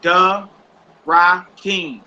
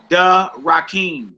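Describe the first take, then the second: First: "Da ... Rakim" in separated syllables. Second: Said in the usual way. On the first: Shown as a demonstration. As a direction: leave a clear gap after "Da", then sound out "Rakim". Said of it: "you separate them with dashes". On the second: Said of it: "So you write out".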